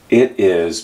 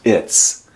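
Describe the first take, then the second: First: It is said as two full separate words. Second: It is one syllable ending in an s sound.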